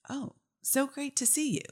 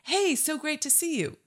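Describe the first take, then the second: First: It sounds unhappy and confused. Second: It sounds warm and happy.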